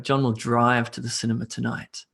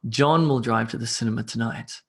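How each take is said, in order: First: The stress falls on the word drive. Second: The stress falls on the word John. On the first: He goes by car, not by bicycle. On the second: It is John, not someone else, who drives.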